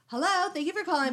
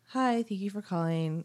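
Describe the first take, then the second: First: It is loud and sickeningly sweet, like Gladys. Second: It is said plainly, in a normal tone.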